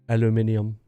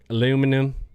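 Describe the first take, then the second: First: It is said in the non-Texan way. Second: It is said in the Texan way. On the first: "We don't say aluminium" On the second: "we're in Texas. ... We're like, aluminum"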